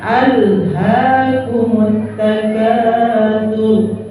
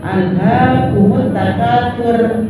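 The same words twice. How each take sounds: First: Slow drawn-out "takatsur" with a heavy r; correct thick r. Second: Quicker chanted "takatsur" ending on a thin r; wrong thin r. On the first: Teacher showing correct reading, slow thick-r chant. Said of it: "ro tafkhim". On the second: Teacher showing the mistake, thin r chant. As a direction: chant "takatsur" with a light final r. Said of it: "Jangan salah begitu". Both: Shown as a demonstration.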